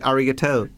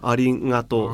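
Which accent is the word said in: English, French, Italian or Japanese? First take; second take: English; Japanese. First: It is said with an English accent. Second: It is said with a Japanese accent. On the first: "un inglese direbbe arigato" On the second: "La G giapponese è un po' più gutturale della nostra"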